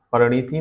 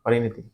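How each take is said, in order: First: परिणति as par-niti, i moved after the n; wrong pronunciation. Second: परिणति with i after r, pari-nati; correct pronunciation. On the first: Teacher showing another wrong form, परिणति as par-niti. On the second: Teacher giving the right word after wrong ones, परिणति as pari-nati. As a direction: keep pari whole at the start of परिणति. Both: Shown as a demonstration. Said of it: "परिणति नहीं होता".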